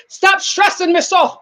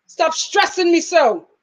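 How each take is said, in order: First: Put-on Jamaican accent slipping toward Irish; higher, drawn-out, muddled Jamaican accent; attempted Jamaican accent. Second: Slow, drawn-out mock plea; step-grandmother's saying. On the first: Vlogger quoting Jamaican step grandmother, shaky Jamaican accent. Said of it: "Not in that accent". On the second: Vlogger quoting step-grandmother to nagging viewers, mock exasperated. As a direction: lightly imitate grandmother, stretching it out. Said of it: "Jamaican step grandmother used to say".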